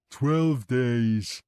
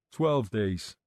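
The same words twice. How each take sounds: First: Put-on louder, gleeful childlike echo; grinning repeat. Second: Said in the usual way. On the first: A narrator's reading. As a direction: repeat it with a pleased grin. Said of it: "Kevin repeated and grinned".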